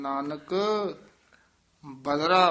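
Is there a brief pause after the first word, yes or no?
yes. A slight break follows the first word. The speaker calls it right. "Nanak ਪਦ ਤੇ ਯਮਕ ਲਾ ਕੇ ਉਚਾਰਨ ਕਰਨਾ ਹੈ।"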